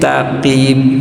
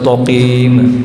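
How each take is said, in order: First: The first consonant is light and thin. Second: The first consonant is heavy and thick. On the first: The speaker calls it right. "taknya tetap tipis" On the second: The speaker calls it wrong. "nggak bisa toqim"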